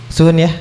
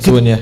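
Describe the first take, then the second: First: It is said in a soft, gentle tone. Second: It is said in a flat, unsoftened tone.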